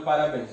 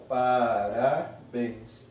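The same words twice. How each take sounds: First: Said in the usual way. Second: "parabéns" slowly split into pa, ra, béns; syllable by syllable. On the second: Shown as a demonstration. Teacher separates the word, "parabéns" syllable by syllable. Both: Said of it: "eu separo".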